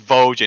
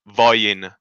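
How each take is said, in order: First: The middle consonant sounds like English 'j'. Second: The middle consonant sounds like English 'y'. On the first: The speaker calls it wrong. "It's not Vojan" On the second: The speaker calls it right. "It's Voyin"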